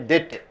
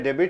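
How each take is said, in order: First: No b sound is pronounced in the word. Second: A b sound is pronounced in the word. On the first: The speaker calls it right. "you should say debt. ... not pronounced" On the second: The speaker calls it wrong. "You should not say debit"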